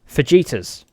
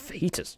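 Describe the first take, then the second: First: The middle consonant sounds like a j, as in Vegeta. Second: The middle consonant sounds like an h. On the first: This is how some relatives say it. The speaker calls it wrong. "as some relatives of mine say" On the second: This is how the speaker says it. The speaker calls it right. "you just have fajitas"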